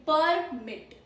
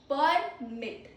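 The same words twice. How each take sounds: The two takes are said the same way.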